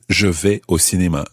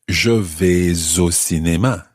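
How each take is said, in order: First: No S sound is heard before the vowel. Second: The S sound links into the following vowel. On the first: "Or just" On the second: "running your S into the O"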